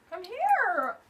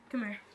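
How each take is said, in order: First: Higher, sing-song call to a pet; coaxing dog voice. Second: Said in the usual way. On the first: Real, not acted. Calling Kobe over to meet viewers, coaxing. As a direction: coax the dog over sweetly.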